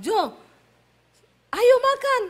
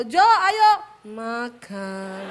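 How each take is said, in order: First: High, loud Sulawesi-style holler; loud summons. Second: Holler, then drop "makan" into a slow gentle fall; forced falling ending. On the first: Retold or imitated. Wife calling her husband to eat, high loud holler. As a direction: call him to the table at full voice. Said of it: "Ya, saya panggil". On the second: Shown as a demonstration. Wife attempting Javanese tone, loud start and sinking slow "makan". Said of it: "belakangnya harus turun".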